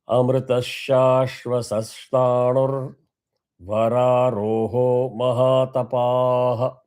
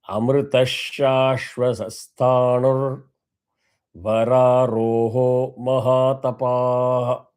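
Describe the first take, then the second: No difference in how they are said.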